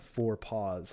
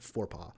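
First: The name ends with an s sound. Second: The name ends without an s sound. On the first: The speaker calls it wrong. "It's not four paws, like, you know, little padded feet" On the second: The speaker calls it right. "but four paw"

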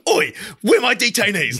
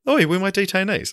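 First: It is said loudly and intensely. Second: It is said quietly and without intensity.

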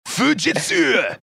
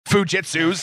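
First: It is said in a put-on Japanese accent. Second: It is said in the speaker's ordinary accent.

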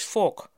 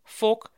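First: The vowel is a rounded o-like sound. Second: The vowel is a rounded o-like sound.

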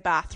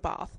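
First: The word is said with a Liverpool accent. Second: The word is said without a Liverpool accent. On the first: "they say Bath" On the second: "rather than Bath"

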